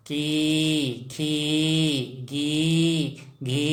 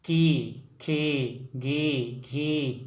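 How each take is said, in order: First: की, खी, गी, घी each with the ई held long; sustained, chant-like long की, खी, गी, घी; long drawn-out ī. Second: की, खी, गी, घी each with a shorter vowel; teacher reciting short-vowel की, खी, गी, घी; short i syllables. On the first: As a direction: stretch the vowel in की, खी, गी, घी. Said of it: "ये थोड़ा लंबा खींचेंगे". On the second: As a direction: say की, खी, गी, घी without stretching the ई. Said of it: "ये थोड़ा लंबा खींचेंगे तब ये बड़ा ई". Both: Shown as a demonstration.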